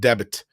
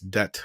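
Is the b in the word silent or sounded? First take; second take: sounded; silent. First: The b is sounded, adding an extra syllable. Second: The b is silent, making one short syllable. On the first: The speaker calls it wrong. "don't pronounce it debit" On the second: The speaker calls it right. "It's debt"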